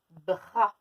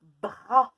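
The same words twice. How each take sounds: First: Bras redit un peu moins fort; répéter bras posément; répété appuyé. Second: Bras dit très fort, montant; mot appuyé. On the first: (mot répété) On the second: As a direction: claironner bras. (mot crié) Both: Shown as a demonstration. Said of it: "Dans le mot".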